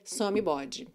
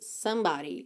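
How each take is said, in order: First: It is read letter by letter, as spelled. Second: It is said with natural English vowels. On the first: The speaker calls it wrong. "se você for ler da forma como a palavra se apresenta ali na escrita" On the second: The speaker calls it right. "So what we want here is somebody"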